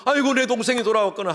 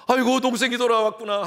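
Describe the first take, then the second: First: Heartfelt "아이고", higher and louder; older son welcoming brother with father's heart, glad; joyful welcome. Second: Glad "아이고", higher and louder; older son should greet his brother, higher and glad; joyful welcome. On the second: How brother should rejoice. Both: Pretend.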